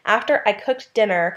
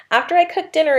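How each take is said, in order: First: Said in the usual way. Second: "After I cooked dinner" lifted high and louder as a quoted example; singled-out clause. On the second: Shown as a demonstration. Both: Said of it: "is a dependent clause".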